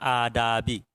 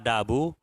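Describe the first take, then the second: First: The word ends in the vowel i. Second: The word ends in the vowel u. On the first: It follows an omitted 'look at'. "boleh dibaca adabi" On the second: It is the predicate of an omitted 'this'. "Boleh dibaca adabu"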